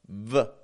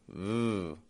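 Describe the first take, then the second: First: The V sound ends with a released vowel. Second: The V sound fades away without a vowel. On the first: The speaker calls it wrong. "releasing a vowel sound after" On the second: The speaker calls it right. "just a V, letting that sound fade away"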